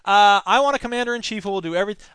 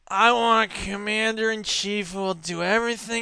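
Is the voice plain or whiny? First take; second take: plain; whiny. First: It is said in a plain, ordinary voice. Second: It is said in a whiny, sniveling voice.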